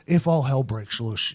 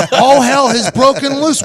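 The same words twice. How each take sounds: First: Low, slow, soft coach voice; subdued, deliberate warning; imitated coach. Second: High, loud, slowed outburst; drawn-out incredulous protest; mock exasperation. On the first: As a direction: drop low and measured like the coach. Coach's line quoted low. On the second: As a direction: holler it back in disbelief. His exasperated answer to coach.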